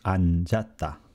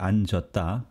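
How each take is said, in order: First: The second syllable has an 'ah' vowel. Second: The second syllable has an 'uh' vowel. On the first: The speaker calls it right. "but the correct spelling is" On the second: The speaker calls it wrong. "You will hear some people still say"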